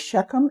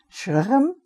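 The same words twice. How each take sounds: First: The name is said with an English pronunciation. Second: The name is said with a Hebrew pronunciation. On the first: "I think in English we say Shechem" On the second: "That's the way we pronounce it in, in Hebrew"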